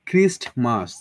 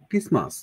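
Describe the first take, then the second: First: A t sound is heard before the m. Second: No t sound is heard before the m.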